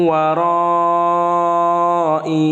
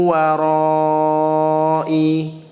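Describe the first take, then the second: No difference in how they are said.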